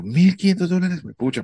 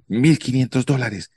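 First: High-pitched stunned repeat of the price; repeating the scammer's price in shocked disbelief; shocked echo. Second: Said in the usual way. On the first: Retold or imitated.

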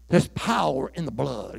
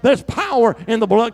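First: Said in the usual way. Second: There's power in the blood cried out higher and louder; loud preached. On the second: Shown as a demonstration. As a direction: call it out for the congregation to repeat. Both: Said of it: "Come on, say that".

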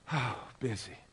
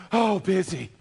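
First: Soft, sighing "busy" after a heavy breath; weary sigh. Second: A puffing, winded "busy" as if fresh off the stairs; mock out of breath. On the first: Retold or imitated. Pastor voicing a worn-out soul, soft and weary. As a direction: let "busy" sag out on a tired exhale. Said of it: "we actually do get out of breath". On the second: Preacher mocking a churchgoer, out of breath. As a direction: gasp it out like you just ran up a flight of stairs. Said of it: "you sound like you just ran up a flight of stairs".

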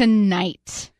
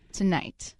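First: Said in the usual way. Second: Much softer, ominous echo; dramatic hush. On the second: Acted. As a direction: drop to a low hush. Dramatic Mariners-Astros hype.

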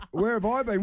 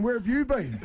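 First: High, incredulous echo with "I" punched; stress on I. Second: Very high, indignant, "you" punched; stress on YOU. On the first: Dad echoing his found son's question, indignant stress on "I". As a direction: throw the question back, leaning hard on "I". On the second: Dad turning the question on his son, indignant stress on "you". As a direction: turn the question round, hitting "you" hard. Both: Retold or imitated.

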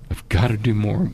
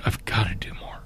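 First: Said in the usual way. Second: Hushed whispered vow; soft unvoiced resolve. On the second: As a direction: whisper it to yourself like a private promise. Retold moment of private resolve.

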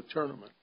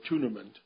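First: Said in the usual way. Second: "tournament" said the Southern way, as at Augusta; imitating a Southern "tournament"; local Southern pronunciation. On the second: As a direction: say "tournament" with a light Southern accent. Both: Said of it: "as they call it down there".

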